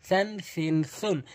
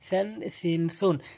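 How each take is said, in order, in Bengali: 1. প্রথম ব্যঞ্জনটি th ধ্বনি। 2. প্রথম ব্যঞ্জনটি th ধ্বনি।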